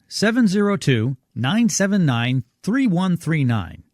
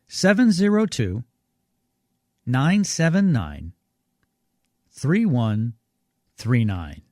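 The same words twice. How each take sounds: First: The number is read at normal speed. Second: The number is read more slowly.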